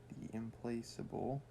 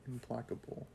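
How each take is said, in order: First: The c is sounded like an s. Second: The c is sounded like a k. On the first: The speaker calls it wrong. "sorry if I'm pronouncing that incorrectly" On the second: The speaker calls it right. "Meaning unable to be placated"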